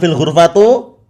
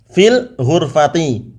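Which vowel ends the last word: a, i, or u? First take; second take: u; i. First: The last word ends in an u vowel. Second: The last word ends in an i vowel. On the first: The speaker calls it wrong. "Bukan fil ghurfatu" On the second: The speaker calls it right. "Harus dibaca dengan fil ghurfati"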